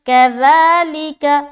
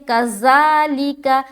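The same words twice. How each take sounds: First: The middle consonant is soft with no hiss. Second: The middle consonant is a hissing z sound. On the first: The speaker calls it right. "सीटी की आवाज़ बिल्कुल नहीं आएगी" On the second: The speaker calls it wrong. "ये जो साउंड है ना ये गलत है"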